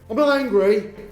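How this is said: It is said in an angry, tense tone. The speaker actually is angry. "That means you obviously are angry"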